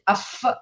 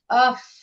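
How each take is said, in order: First: The f sound ends with a bounce. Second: The f sound flows smoothly, without a bounce. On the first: The speaker calls it wrong. "this is not qalqala, so you will not say aff" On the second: The speaker calls it right.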